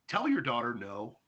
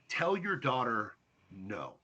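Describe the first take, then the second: First: It is said at normal speed. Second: It is said very slowly.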